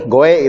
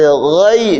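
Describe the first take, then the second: First: The syllable ends in an e sound. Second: The syllable ends in an i sound. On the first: The speaker calls it wrong. "Ada yang di dalam Fatihah membaca goe" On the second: The speaker calls it right. "Go berarti goi. Jadi bukan goe"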